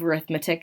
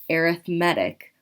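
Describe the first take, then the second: First: The stress is on the second syllable. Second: The stress is on the third syllable. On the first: It names the subject of math. "another word for math" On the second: It describes a sequence with a constant difference. "when that word is paired with the word sequence, we pronounce it arithmetic"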